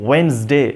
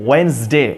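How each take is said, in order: No difference in how they are said.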